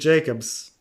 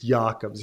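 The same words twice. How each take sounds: First: The name is said the common English way. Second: The name is said a less familiar way. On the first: This is how everyone says the name now. "I say Jacobs" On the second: This is the name's original pronunciation. "Stop mispronouncing my name. It's Jacobs"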